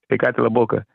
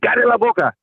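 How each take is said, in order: First: It is said quietly with a low voice. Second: It is said loudly with a raised voice.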